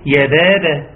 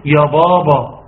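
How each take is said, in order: First: يا بابا with thin, fronted "bebe" vowels; thin out both ب sounds in يا بابا; light ba. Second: يا بابا with thick, back "baba" vowels; small child's wrong, thickened ب in يا بابا; heavy ba. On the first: (يا بابا بترقيق الباء) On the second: (يا بابا بتفخيم الباء) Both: Shown as a demonstration. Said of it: "الصح ترقيق الباء".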